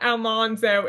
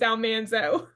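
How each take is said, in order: First: The middle syllable does not sound like 'man'. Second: The middle syllable sounds like 'man'. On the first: The speaker calls it wrong. "It's not Almanzo" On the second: The speaker calls it right. "it's Almanzo"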